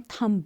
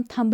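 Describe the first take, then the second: First: थंब said as "thum", no b at the end; थंब ending on m, b left silent; thumb with silent b. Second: थंब said as "thumb-b", final b clearly pronounced; थंब spoken wrongly with a hard final b; thumb with the b sounded. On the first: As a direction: drop the b in थंब completely. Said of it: "उसको हम थंब बोलते हैं". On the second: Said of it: "उसको हम थंब नहीं बोलते". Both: Shown as a demonstration.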